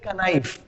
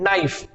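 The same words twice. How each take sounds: First: KANAIF with the silent K sounded; wrong reading of knife. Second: नाइफ starting straight on the n; correct knife. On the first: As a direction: say कनाइफ with an extra "ka" before the n. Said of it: "तो कनाइफ नहीं होता". (कनाइफ, K की आवाज़ के साथ गलत उच्चारण) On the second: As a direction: say नाइफ with the K silent. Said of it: "ये केवल क्या होता है". (नाइफ, K साइलेंट सही उच्चारण) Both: Shown as a demonstration.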